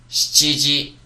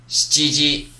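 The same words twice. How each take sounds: Both takes have the same delivery.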